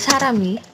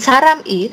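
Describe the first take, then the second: First: The m runs straight into the following vowel. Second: The m ends a syllable before a separate vowel. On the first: The speaker calls it right. "M-nya pindah. Jadi ke Sarami" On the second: The speaker calls it wrong. "bukan Saram I"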